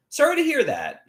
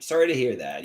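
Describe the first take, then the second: First: High sympathy. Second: Said in the usual way. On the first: Real, not acted. Sympathy for sick viewer.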